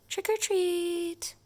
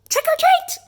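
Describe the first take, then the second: First: It is said very softly. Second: It is said louder.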